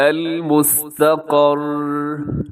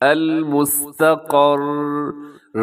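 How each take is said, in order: First: The word ends on a bare r consonant. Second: The word ends on a bare r consonant.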